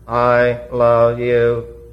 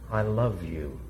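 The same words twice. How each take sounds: First: It is said in a flat, mechanical voice. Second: It is said in a warm, natural voice.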